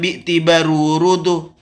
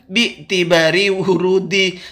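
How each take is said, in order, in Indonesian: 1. Kedua kata berakhiran vokal u. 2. Kedua kata berakhiran vokal i. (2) "Yang namanya kemasukan huruf jer, isim iya harus jer"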